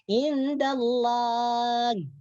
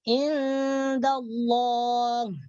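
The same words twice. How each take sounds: First: The L in Allah is thin and light. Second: The L in Allah is heavy and dark. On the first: The speaker calls it wrong. "Jangan sampai dibaca tipis seperti indallah" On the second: The speaker calls it right. "Jadi yang betul indallah"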